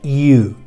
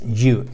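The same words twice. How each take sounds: First: It starts with a soft gliding ee-like sound. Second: It starts with a hard Spanish-style Y sound. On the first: The speaker calls it right. "se pronuncia you" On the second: The speaker calls it wrong. "las solemos pronunciar como Y en español"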